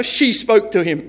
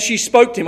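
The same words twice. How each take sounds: First: "she" picked out as the key word; stress on she. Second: Said in the usual way. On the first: Shown as a demonstration. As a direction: lean on "she", then let "spoke to him" fall away. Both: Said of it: "I love that he said she spoke to him".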